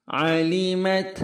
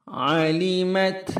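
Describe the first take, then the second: The two takes are said the same way.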